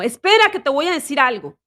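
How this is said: It is said firmly, with force.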